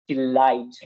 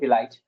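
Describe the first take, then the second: First: The word is said with crisp, careful articulation. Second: The word is said casually, without crisp articulation. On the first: "as I'm a trainer, I can say like this" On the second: "as a normal speaker, he can say delight"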